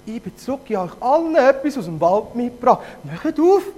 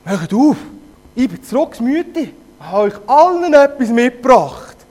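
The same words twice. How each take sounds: First: High wolf voice. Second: Helium wolf voice. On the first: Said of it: "mit einer hohen Stimme gesagt". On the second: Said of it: "Stimme, wie wenn er Helium". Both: Acted.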